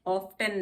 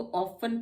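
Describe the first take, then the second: First: ऑफ्टन with a clear T after F; wrongly sounded T. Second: ऑफन with F straight into N; silent T. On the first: Teacher shows what not to read, ऑफ्टन with T. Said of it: "ऑफ्टन नहीं पढ़ते हैं". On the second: Teacher models the exception, ऑफन with silent T. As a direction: leave the T out of ऑफन. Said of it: "हम इसको ऑफन पढ़ते हैं". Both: Shown as a demonstration.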